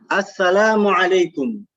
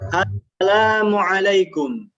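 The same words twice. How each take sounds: First: The greeting is said a bit faster. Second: The greeting is said slowly. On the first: "agak lebih cepat sedikit" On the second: "Pelan-pelan dulu ya"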